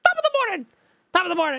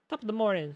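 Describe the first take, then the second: First: High, loud mock Irish greeting; hammed-up Irish accent. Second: Mock Irish accent. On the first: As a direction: belt out "Top of the morning!" in a cartoon Irish lilt. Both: Shown as a demonstration. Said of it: "Irish, Irish".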